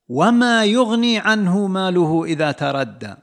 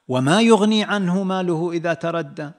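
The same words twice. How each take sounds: First: It is intoned as a flat negative statement. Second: It is intoned as a rhetorical question. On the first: His wealth will not help him when he perishes. "نفي، ما للنفي ... هذا نبر" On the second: What good will his wealth do him when he perishes? "هذا النبر نبر سؤال"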